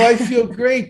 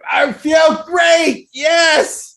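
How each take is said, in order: First: It is said weakly, without conviction. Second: It is said with strong conviction and energy.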